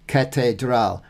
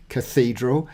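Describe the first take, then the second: First: "catedral" in Spanish, stress on the last syllable "dral"; Spanish stress at the end; Spanish pronunciation. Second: "Cathedral" in English, stress on the second syllable; English stress on the middle syllable; English pronunciation. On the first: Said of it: "catedral in Espanol". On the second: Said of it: "we say cathedral". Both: Shown as a demonstration.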